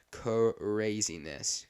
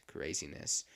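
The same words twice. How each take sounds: First: CRAZINESS stretched out slowly on its first syllable; drawn-out emphasis. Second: Lower, softer repeat; quiet echo. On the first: Marvels at how fast December is flying, CRAZINESS drawn out slowly. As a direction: draw out "craziness". Exclaims over time flying, then repeats. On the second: Repeats to himself as December flies by, quiet echo. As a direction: drop it down to a low afterthought. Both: Real, not acted.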